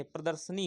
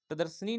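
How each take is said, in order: First: प्रदर्शनी said clearly the right way; correct pronunciation. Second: प्रदर्शनी read as the wrong form; wrong spelling reading. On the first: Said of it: "प्रदर्शनी होता है". (सही उच्चारण प्रदर्शनी) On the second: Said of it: "प्रदर्शनी नहीं है". (गलत उच्चारण प्रदर्शनी) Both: Shown as a demonstration.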